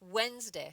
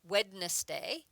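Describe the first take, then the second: First: The D in the middle is silent. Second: The D in the middle is pronounced. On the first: The speaker calls it right. "We say Wednesday. ... We don't use the D" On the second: The speaker calls it wrong. "We don't say Wednesday"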